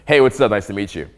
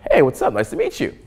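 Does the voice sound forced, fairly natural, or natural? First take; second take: fairly natural; forced. First: The voice sounds somewhat more natural. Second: The voice sounds forced and put on.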